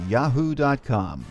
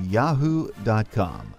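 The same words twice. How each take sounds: The two takes are said the same way.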